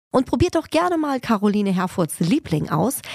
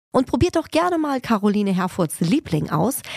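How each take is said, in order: The two takes are said the same way.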